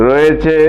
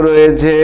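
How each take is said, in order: No difference in how they are said.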